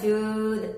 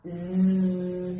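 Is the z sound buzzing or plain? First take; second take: plain; buzzing. First: The z sound is short with little vibration. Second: The z sound is buzzed with strong vibration. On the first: "그냥 즈 하고는 다르지" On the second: "이렇게 떨어야 돼"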